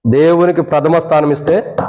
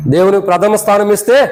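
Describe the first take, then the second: First: Said in the usual way. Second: "ఇస్తే" lifted in a rising, prompting tune; emphatic repeat. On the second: Real, not acted. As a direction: repeat it higher, leaving "ఇస్తే" hanging upward. Repeats clause to prompt congregation. ("ఇస్తే" పై స్వరం పెంచి నొక్కి చెప్పడం)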